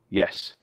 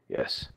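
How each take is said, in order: First: It is said in a confident voice. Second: It is said in a croaky voice.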